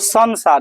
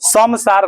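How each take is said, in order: First: The nasal before s sounds like n. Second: The nasal before s sounds like m. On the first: The speaker calls it right. "संसार होता है" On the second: The speaker calls it wrong. "समसार नहीं होता"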